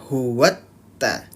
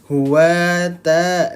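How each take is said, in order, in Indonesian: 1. Huruf t ditekan dan dibaca ganda. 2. Huruf t ringan dan dibaca tunggal. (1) "Ditekan saja" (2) "Kalau misalkan tidak ditekan seperti apa?"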